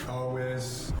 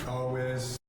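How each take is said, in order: The two takes are said the same way.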